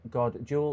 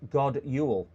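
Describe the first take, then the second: First: Jul starts with a J sound. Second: Jul starts with a Y sound. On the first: The speaker calls it wrong. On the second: The speaker calls it right.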